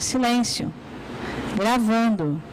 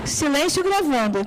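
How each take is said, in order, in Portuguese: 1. Há uma pausa clara entre as palavras. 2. As duas palavras são ditas juntas, sem pausa. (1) "Na fala a gente faz isso" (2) "Quem está gravando? É o silêncio"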